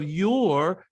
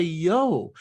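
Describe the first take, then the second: First: Said in the usual way. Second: "yo" for "your", open O; dropped R. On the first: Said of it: "instead of". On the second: Shown as a demonstration. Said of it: "they would say".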